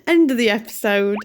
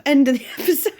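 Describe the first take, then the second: First: Said in the usual way. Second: Giggling through the sign-off, voice a bit higher; laughing. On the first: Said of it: "retakes the line after laughing". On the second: Real, not acted. Vlogger cracking up while closing the episode, laughing. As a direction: breaks into a laugh mid-phrase, can't hold it together.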